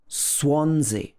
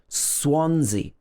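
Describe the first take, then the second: No difference in how they are said.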